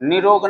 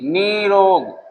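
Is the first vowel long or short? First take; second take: short; long. First: The first vowel is short. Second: The first vowel is long. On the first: The speaker calls it wrong. "निरोग नहीं" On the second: The speaker calls it right. "ये दीर्घ में बदल जाएगा"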